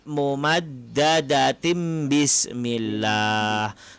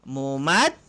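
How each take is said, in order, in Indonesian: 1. Kata ini berakhir dengan m, tersambung ke kata berikutnya. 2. Kata ini berakhir dengan h dan suara berhenti. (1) "kalau kita sambung sebab dia tanwin bertemu dengan huruf ba" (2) "kalau kita tidak sambung maka berhenti dekat mumaddadah"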